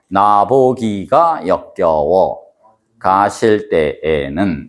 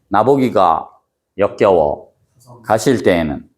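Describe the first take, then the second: First: The line is split into two parts. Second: The line is split into three parts. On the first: The syllables are counted as seven and five. "숫자로 놓고 보면" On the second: The line is read in three rhythmic feet. "끊어 읽는 걸로 놓고 보면"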